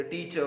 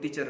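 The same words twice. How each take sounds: First: "टीचर" with the final R dropped, ending in a plain vowel; silent R. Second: "टीचर" with the final R sounded; R pronounced. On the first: Teacher showing students British speech, "टीचर" with silent final R. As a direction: say "टीचर" British-style, no R at the end. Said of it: "आर को pronounce नहीं किया जाता". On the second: Teacher showing what British speakers avoid, "टीचर" with sounded final R. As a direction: say "टीचर" ending on an audible R. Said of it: "नहीं बोलते". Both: Shown as a demonstration.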